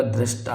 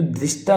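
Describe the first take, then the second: First: दृष्टा with an "a" sound, "drashta"; correct form. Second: दृष्टा with an "i" sound; wrong form. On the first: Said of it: "दृष्टा होगा". (दृष्टा को "द्रष्टा" बोलें) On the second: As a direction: say दृष्टा as "drishta". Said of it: "दृष्टा नहीं होगा". (दृष्टा को "द्रिष्टा" बोलें) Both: Shown as a demonstration.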